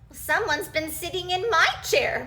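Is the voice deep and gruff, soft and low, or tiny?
soft low. A soft, low Mommy Bear voice exclaims it.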